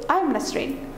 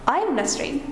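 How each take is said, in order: No difference in how they are said.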